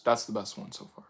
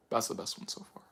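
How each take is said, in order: First: Said in the usual way. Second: Breathy whispered echo; whispered repeat. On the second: Retold or imitated. Praising Gamma Gamer's choice, echoed in a whisper. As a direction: whisper it back to yourself. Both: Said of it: "You're like".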